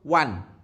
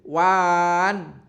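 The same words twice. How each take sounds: First: The vowel lasts only one beat. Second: The vowel is stretched beyond one beat. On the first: The speaker calls it right. "langsung wan. Satu ketukan" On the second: The speaker calls it wrong. "Tidak boleh wan"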